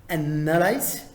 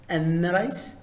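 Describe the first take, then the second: No difference in how they are said.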